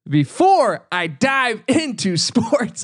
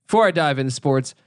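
First: Laughing repeat. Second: Said in the usual way. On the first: Shown as a demonstration. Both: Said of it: "I'm just gonna re-, repeat everything".

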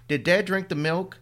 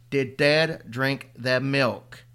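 First: High, louder rising question; urgent question. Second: Very slow, louder, flat insistence; stubborn repeat. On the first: Boy asking his mother about the thermos, urgent. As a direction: demand the answer urgently. Son asks about the milk. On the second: Boy repeating his question to his mother, stubborn and slow. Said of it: "his old stubborn self". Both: Acted.

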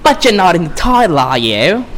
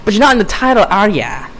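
First: Needling villainess, pitched up then dropping; botched New York-British accent; Harley Quinn. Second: Higher, more insistent villainess taunt; botched New York accent, high and needling; Harley Quinn. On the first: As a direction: taunt him in a put-on character voice. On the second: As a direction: rub it in with a high put-on voice. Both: Acted. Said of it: "That was a shitty Harley Quinn impression".

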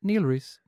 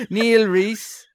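First: Said in the usual way. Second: Higher, louder put-on Dublin, lifted ending; hammed-up Dublin accent, pitched up. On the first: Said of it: "supposed to get a normal one". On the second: Host reading a supporter's name, exaggerated Dublin accent. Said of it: "let's try a Dublin accent".

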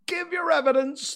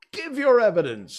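First: Very high, loud angry demand; shrieking royal command. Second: High, loud royal order; ringing courtroom command; commanding king. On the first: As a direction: snap the order as a furious king. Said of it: "the king repeated angrily". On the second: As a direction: demand it as an impatient monarch. King orders a nervous witness. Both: A narrator's reading.

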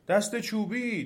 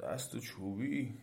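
First: High, urgent call; trees crying out. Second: Very soft, slow, sleepy question; drowsy demon. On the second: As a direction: ask it barely awake, slow and soft. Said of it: "خواب و بیدار گفت". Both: A narrator's reading.

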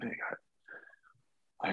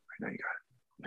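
First: Slow whispered repeat. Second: Whispered reassurance. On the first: To the sound guy, slow whispered repeat. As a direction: whisper it again, drawn out slowly. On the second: To the sound guy mid-scene, whispered reassurance. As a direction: breathe it, no voice. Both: Retold or imitated.

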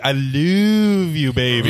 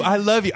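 First: LOVE stretched long and crooned, sliding down; weird drawn-out love. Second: Said in the usual way. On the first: Acted. Partner reassuring girlfriend who suspects cheating, saying love weirdly drawn out. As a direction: draw out LOVE oddly, half speed. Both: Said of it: "You're saying it weird".

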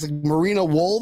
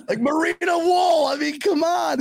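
First: Said in the usual way. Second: Incredulous shout. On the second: Retold or imitated. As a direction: exclaim it, laughing in disbelief. Incredulous retelling of sock hunt.

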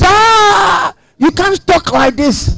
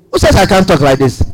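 First: High, drawn-out gasp of protest; shocked objector. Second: Said in the usual way. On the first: Acted. Imagined critic objecting to such talk, shocked. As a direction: object in a raised pitch, opening on a long "Ah". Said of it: "when you talk like this".

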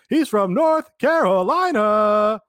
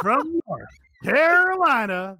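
First: "North" punched hard, high and loud, slow; mocking the wrong emphasis. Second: "Carolina" held longest and strongest, high and loud; correct announcer emphasis. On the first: Host mocking Justin Roberts' misplaced announcer emphasis. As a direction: lean on "North" instead of "Carolina". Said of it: "Justin Roberts goes". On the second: Shown as a demonstration. Host showing how Mike's announcer call should go. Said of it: "That's what you do".

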